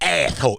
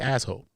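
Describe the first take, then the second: First: The word is said with a lisp. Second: The word is said plainly, without a lisp. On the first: "That's what he said" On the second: "He don't say asshole"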